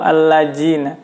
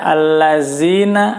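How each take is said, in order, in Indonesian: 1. Huruf tengahnya bunyi j. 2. Huruf tengahnya bunyi z. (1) "atau allajina" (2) "jangan sampai membaca allazina"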